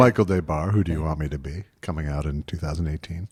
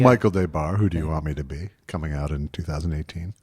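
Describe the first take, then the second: First: It is a weak, half-hearted sales voice. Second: The same.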